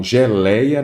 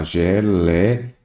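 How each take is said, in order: First: Said in the usual way. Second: "geleia" slowly broken into syllables, with gaps; split into syllables. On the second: Shown as a demonstration. Teacher breaking down the word for students, slow and syllable by syllable. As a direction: sound out "geleia" piece by piece. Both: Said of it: "Vamos lá, geleia".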